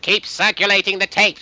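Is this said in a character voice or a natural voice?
character. It is said in a put-on character voice.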